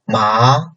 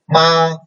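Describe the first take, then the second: First: It is said with the second tone. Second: It is said with the first tone. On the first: "second tone" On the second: "The first tone"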